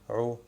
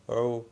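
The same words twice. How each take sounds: Both takes have the same delivery.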